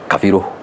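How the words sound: The name has an f sound after ka. This is how the central region says it. "in Central they say Kafiru"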